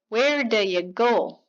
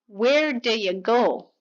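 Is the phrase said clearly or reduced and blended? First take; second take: reduced; reduced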